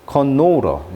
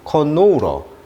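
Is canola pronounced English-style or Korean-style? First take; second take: English-style; English-style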